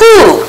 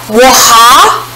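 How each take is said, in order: First: It is said as one whole syllable. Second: Each letter is sounded out separately. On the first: The speaker calls it right. "So this word is ooh" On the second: The speaker calls it wrong. "let's sound it out the way it should if it played by the rules"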